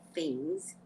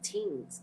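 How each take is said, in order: First: It begins with a th sound. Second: It begins with a plain t sound. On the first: The usual way it is said elsewhere. "we don't say things" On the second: The way it is said in the West Indies. "Because I'm in the West Indies now"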